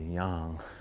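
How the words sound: The word has a Chinese-style pronunciation. "in China it's probably yang"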